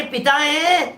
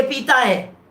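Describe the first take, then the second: First: पिता with a short i, "pi-taa"; पिता as in father, short first syllable. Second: पीता with a long ee, "pee-taa"; पीता as in drinks, long first syllable. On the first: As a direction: clip only the first vowel of पिता. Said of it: "पिता है माने father है". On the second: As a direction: draw out the ee in पीता. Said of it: "पीता है माने liquor है". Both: Shown as a demonstration.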